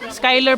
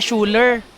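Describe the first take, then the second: First: The name starts with a 'sky' sound. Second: The name starts with a 'shoo' sound. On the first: The speaker calls it right. "Skyler pala pag pronounce na" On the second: The speaker calls it wrong. "hindi pala Schuler. Kala ko Schuler"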